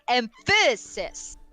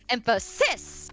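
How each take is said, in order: First: The stress is on the middle syllable. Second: The stress is on the last syllable. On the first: "If you wanted to put emphasis on the middle syllable, it would probably sound more like" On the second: "And then the last syllable"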